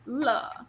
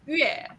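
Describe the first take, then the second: First: The syllable begins with an L sound. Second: The syllable does not begin with an L sound. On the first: It is the reading that means happiness. The speaker calls it wrong. "not as 了" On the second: It is the reading used in the word for music. The speaker calls it right. "when it's in the in the word for music, 音乐, it's read as 乐"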